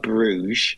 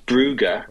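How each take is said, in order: First: The name is one syllable ending in a soft zh. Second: The name is two syllables with a hard g. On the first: This is the older way the name was said. "before it was always – Club Bruges" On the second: This is the current way the name is said. "Now it's Brugge"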